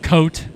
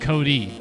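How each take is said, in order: First: The name is said as one syllable, 'coat'. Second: The name is said as two syllables, 'Cody'. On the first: The speaker calls it wrong. "I pronounce it coat forever" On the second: The speaker calls it right. "it is actually pronounced Cody"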